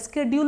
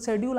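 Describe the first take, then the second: First: The word begins with a 'sk' sound. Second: The word begins with a 'sh' sound. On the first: "स्केड्यूल में बदल जाएगा" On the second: "जैसे देखें तो शेड्यूल"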